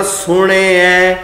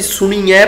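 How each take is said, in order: First: ਸੁਣਿਐ with only a faint i before ai; just touch the i in ਸੁਣਿਐ; light short i. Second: ਸੁਣੀਐ as su-nee-ai; long ee mistake. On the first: Teacher models the right reading, ਸੁਣਿਐ with light sihari. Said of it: "ਹਲਕੀ ਜੀ ਨਾਣੇ ਨੂੰ ਲੱਗੀ ਹੋਈ ਸਿਹਾਰੀ". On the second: Teacher quotes our habitual misreading, ਸੁਣੀਐ with long ee. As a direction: lengthen the ee inside ਸੁਣੀਐ. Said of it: "ਅਸੀਂ ਸੁਣੀਐ ਪੜ੍ਹੀ ਜਾ ਰਹੇ ਹਾਂ". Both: Shown as a demonstration.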